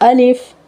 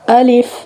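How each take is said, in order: The two takes are said the same way.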